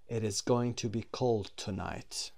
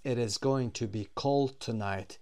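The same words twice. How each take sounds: First: Said in the usual way. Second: Slow, careful example sentence; slow model reading. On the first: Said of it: "teacher repeats example". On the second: Shown as a demonstration. Teacher reading the prediction example, slow and clear. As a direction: read it clearly for the class. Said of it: "teacher models example slowly".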